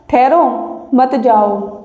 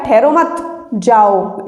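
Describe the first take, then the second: First: Rising ठहरो, pause, then मत जाओ falling; pause after ठहरो. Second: ठहरो मत run together, break, then low जाओ; slowly group ठहरो with मत, leave जाओ separate; pause after मत. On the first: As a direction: split off ठहरो, keep मत जाओ together. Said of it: "इसमें कह रहा है". (ठहरो के बाद विराम, फिर मत जाओ) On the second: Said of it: "उसमें कह रहा है". (ठहरो मत के बाद विराम, फिर जाओ) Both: Shown as a demonstration.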